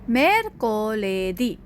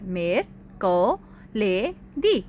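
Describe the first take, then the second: First: The word is said smoothly without breaks. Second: The word is said with breaks between syllables.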